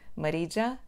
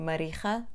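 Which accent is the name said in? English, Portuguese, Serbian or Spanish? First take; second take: English; Spanish. First: The name is said with an English accent. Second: The name is said with a Spanish accent. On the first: "Os falantes de inglês pronunciam-o como" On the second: "Os falantes de espanhol pronunciam o meu nome"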